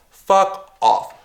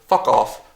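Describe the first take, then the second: First: Fuck off thrown out higher and harder, fuck punched; angry repeat. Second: Said in the usual way. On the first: Real, not acted. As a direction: spit it out the second time, pitch jumping up.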